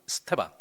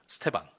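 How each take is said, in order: First: The opening vowel is dropped, starting on 's'. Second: The opening vowel is dropped, starting on 's'.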